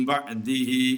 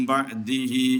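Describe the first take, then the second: The two takes are said the same way.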